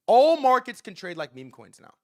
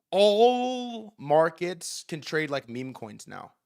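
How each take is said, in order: First: Louder punchline. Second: Each word laid down slowly and deliberately; slow emphatic. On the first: To listeners, restating his takeaway louder and punchier. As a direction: punch the whole line out loud and sure. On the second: To listeners, stating his big takeaway slowly and deliberately. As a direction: spell it out slowly so it sinks in. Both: Real, not acted. Repeating the key point for emphasis.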